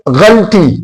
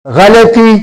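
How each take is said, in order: First: غلطی said ghal-ti, no vowel between ل and ط; the wrong way: غلطی as ghalti; غلطی clipped to two syllables, ghal-ti; wrong pronunciation. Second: غلطی said gha-la-ti, a short a after ل; the right way: غلطی in three syllables, gha-la-ti; غلطی spelled out clearly as gha-la-ti; correct pronunciation. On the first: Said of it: "یہ بالکل غلط ہے". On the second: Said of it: "تو لفظ ہے غلطی". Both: Shown as a demonstration.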